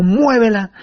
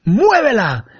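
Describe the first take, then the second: First: Quoted command. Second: Sharp command. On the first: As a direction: repeat it as a firm command. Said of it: "como el maestro dijo". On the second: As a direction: bark the one word like a master giving a command. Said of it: "y me dice". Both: Retold or imitated.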